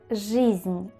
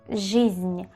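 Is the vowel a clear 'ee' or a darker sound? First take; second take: clear ee; clear ee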